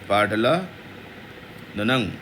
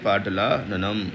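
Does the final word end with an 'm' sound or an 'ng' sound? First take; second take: ng; m. First: The word ends with an 'ng' sound. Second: The word ends with an 'm' sound. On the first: The speaker calls it right. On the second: The speaker calls it wrong.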